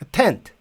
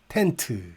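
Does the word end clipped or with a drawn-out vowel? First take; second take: clipped; drawn-out. First: The final consonant stops short with no vowel. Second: A vowel is added and drawn out after it. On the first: The speaker calls it right. "의를 안 넣으면 아무리 장애물이 없는 상태로 끝나도 길게 소리를 끌 수가 없어요" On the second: The speaker calls it wrong. "그 상태에서는 길게 갈 수 있어요"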